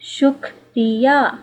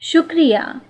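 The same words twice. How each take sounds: First: The word is said slowly. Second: The word is said fast.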